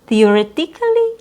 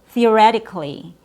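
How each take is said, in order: First: The stress falls away from the 're' syllable. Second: The stress falls on the 're' syllable. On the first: The speaker calls it wrong. "different syllable stress" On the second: The speaker calls it right. "re, your stressed syllable"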